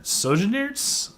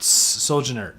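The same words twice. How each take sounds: First: Soljanarts slow, rising like a question; unsure pronunciation. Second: Said in the usual way. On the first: Shown as a demonstration. Reviewer unsure how to say the name, questioning rise. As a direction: try Soljanarts doubtfully, tune going up. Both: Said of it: "I don't know. It's long. It's weird".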